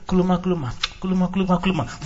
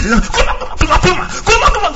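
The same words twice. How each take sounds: First: Slow, soft, even kuluma chant; slow calm tongues. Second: Kuluma rattled off fast, climbing higher and louder; fast fervent tongues. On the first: Preacher showing calm praying in tongues. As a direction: pray kuluma slowly and gently. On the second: Preacher showing tongues when you feel it. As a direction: speed it up as the spirit takes you. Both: Shown as a demonstration. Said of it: "The only difference is the speed".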